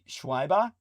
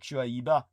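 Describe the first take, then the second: First: The middle vowels run together into one glide. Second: Each middle vowel is pronounced separately and clearly. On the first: "it could be Schwaiba" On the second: "I think it'd be more like Shuaiba"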